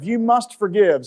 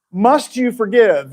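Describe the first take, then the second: First: "You must forgive" slow and raised, as a statement; stated as command. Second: "must you forgive" slow and raised, as a question; posed as question. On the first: Preacher turning the question into a rule, slow declarative "You must forgive". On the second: Preacher putting the first question to listeners, slow questioning "must you forgive". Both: Shown as a demonstration. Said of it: "if we say it as a question".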